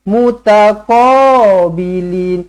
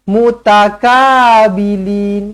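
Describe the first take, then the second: First: The middle consonant is a deep back-of-throat q. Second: The middle consonant is a plain k sound. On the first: The speaker calls it right. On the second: The speaker calls it wrong.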